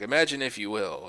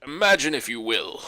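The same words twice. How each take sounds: First: Said in the usual way. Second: A hint of the Twilight Zone narrator; ominous host intro; Rod Serling impression. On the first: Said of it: "totally not in character". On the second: [name] doing the show's narrator, lightly voiced. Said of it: "the perfect Rod Sterling".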